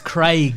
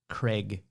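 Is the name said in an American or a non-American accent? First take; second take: non-American; American. First: The name is said in a non-American accent. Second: The name is said in an American accent. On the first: The speaker calls it right. "It's Craig" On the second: The speaker calls it wrong. "Americans who pronounce the, the name Craig?"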